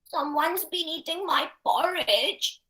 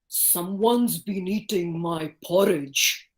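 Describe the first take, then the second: First: It is said in a very small, tiny voice. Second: It is said in a big, heavy voice. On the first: A little character is speaking. "like Baby Bear" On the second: A large, heavy character is speaking. "if I were to say this like Papa Bear"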